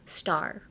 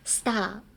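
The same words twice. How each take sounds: First: The R sound at the end is clearly heard. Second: The R sound at the end is dropped. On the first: The speaker calls it right. "So star, R" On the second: The speaker calls it wrong. "they tend to uh, say star like star"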